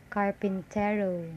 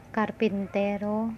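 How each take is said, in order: First: "carpintero" with English-style r and vowels; native-speaker English pronunciation. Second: "carpintero" with tapped r and pure vowels; Tagalog pronunciation. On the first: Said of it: "the word carpintero pronounced as". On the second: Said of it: "pronounced Tagalog". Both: Shown as a demonstration.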